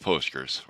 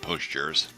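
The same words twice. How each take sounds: First: The G is a hard G sound. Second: The G sounds like a J.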